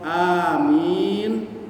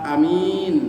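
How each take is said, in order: First: The first vowel is long. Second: The first vowel is short. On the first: It asks that the prayer be granted. "a-nya panjang, mi-nya panjang" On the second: It means trustworthy or honest. "kalau a-nya tidak panjang"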